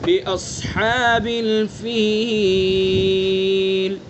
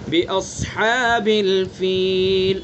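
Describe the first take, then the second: First: The final long vowel is held three counts. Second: The final long vowel is held one count. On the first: "तीन अलिफ" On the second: "अगर एक अलिफ खींचना चाहें"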